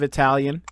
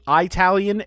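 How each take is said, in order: First: The first vowel sounds like 'ih'. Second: The first vowel sounds like 'eye'. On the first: The speaker calls it right. "instead of Italian" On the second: The speaker calls it wrong. "people who say Italian ... it's not an Apple product"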